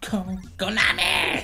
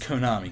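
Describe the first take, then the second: First: It is said in a special put-on voice. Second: It is said in an ordinary speaking voice. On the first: The speaker calls it right. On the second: The speaker calls it wrong.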